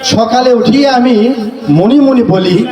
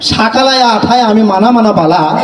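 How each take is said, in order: First: The words keep their usual mixed vowels. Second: Nearly every vowel is changed to a. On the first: This is the normal way the poem goes. "বাংলাদেশের সঠিকটাই বলি আগে" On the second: This is how people in one country supposedly talk. "এই শেষে এই আকার দিয়ে কবিতা রচনা করলাম।"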